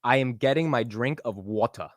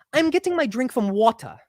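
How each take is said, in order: First: Texan-sounding line, British "water" at the end. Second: High-pitched put-on British accent; raised-voice British accent. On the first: Host copies the sentence unraised, Texan-sounding British attempt. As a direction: stay in usual pitch, only "water" turns British. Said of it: "the rest of it sounds like I'm from Texas". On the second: Host shows raising his voice helps the accent, high British accent. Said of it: "when I raise my voice". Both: Shown as a demonstration.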